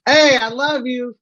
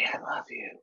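First: Slow, high, loud slur of affection; drunken yell. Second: Voiceless, hushed affection; creepy whisper. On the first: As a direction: holler it like a happy drunk. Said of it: "Now you sound like you're drunk". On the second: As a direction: whisper it like a secret admirer. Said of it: "That sounds creepier". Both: Acted.

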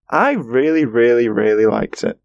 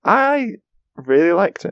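First: Gushing, stacking up every "really"; stressed reallys. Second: Keen. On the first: Shown as a demonstration. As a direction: pile on the "really, really, really". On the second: Real, not acted. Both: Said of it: "That's how many reallys I would give it".

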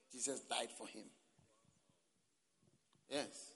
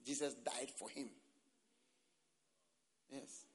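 Both takes have the same delivery.

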